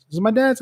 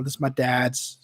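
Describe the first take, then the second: First: "dad's?" rising high in doubt; doubting question. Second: Said in the usual way. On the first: Real, not acted. Catching himself mid-story, questioning "dad's?" with a rising tune. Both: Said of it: "I think this is my mom's".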